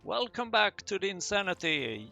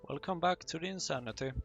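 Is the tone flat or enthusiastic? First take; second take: enthusiastic; flat. First: It is said in an enthusiastic, lively way. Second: It is said in a flat, plain way.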